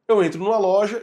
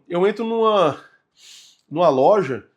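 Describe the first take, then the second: First: The phrase flows without a breath inside it. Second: A breath breaks the middle of the phrase. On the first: The speaker calls it right. "eu vou falar no final da frase" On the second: The speaker calls it wrong. "respirando no meio da frase"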